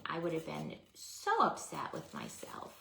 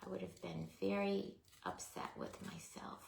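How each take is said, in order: First: Said in the usual way. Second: Whispering. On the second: Real, not acted. Repeated whispered.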